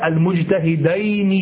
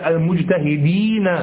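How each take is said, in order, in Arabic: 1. يُنطق المقطع الأخير بـ 'ayn'. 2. يُنطق المقطع الأخير بـ 'een'. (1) "لا المجتهدين" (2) "بل المجتهدين"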